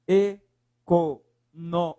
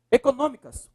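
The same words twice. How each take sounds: First: "Econômicas" slowly chopped into separate syllables. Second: Said in the usual way. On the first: Shown as a demonstration. Teacher separating the word for students, "Econômicas" syllable by syllable. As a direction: say "Econômicas" one syllable at a time. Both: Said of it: "Separe lá".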